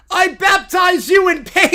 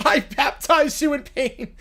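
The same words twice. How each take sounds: First: High, loud shouted blessing; hammed-up holy warrior yell; mock battle cry. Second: Slow, laughing through the words; barely holding a laugh; laughing repeat. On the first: Voicing bear attacking with holy water. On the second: Real, not acted.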